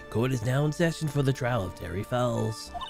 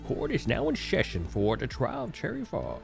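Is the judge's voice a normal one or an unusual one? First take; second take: normal; unusual. First: It is said in a normal judge voice. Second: It is said in an unusual experimental voice. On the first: The speaker calls it right. "we'll just go with the normal judge voice" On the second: The speaker calls it wrong. "No. No. No"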